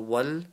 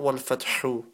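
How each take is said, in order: First: The word ends on the h with no vowel. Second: The word ends with an added 'u' vowel. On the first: The speaker calls it right. "when you're stopping on letter, only some of that letter remains" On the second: The speaker calls it wrong. "not Walfatihu"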